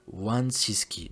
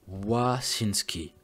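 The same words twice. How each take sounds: First: "Wansiski" sounded out slowly, with the n in the first syllable; careful second try at "Wansiski", drawn out; corrected pronunciation. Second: "Wasinski" sounded out very slowly, no n in the first syllable; laboured first try at "Wasinski", syllable by syllable; struggling pronunciation. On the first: Narrator settling on a tricky surname, "Wansiski" said slowly and carefully. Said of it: "je crois qu'elle est bonne". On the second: Narrator wrestling with a victim's surname, "Wasinski" said slowly and laboriously. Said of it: "c'est une mission de prononcer".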